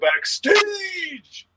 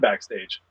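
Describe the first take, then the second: First: It is said with loud, excited energy. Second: It is said in a calm, flat way. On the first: It names a thrilling place to go. "we're going to go backstage!" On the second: It names an ordinary place. "there's a lot going on backstage"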